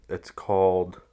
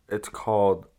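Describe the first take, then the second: No difference in how they are said.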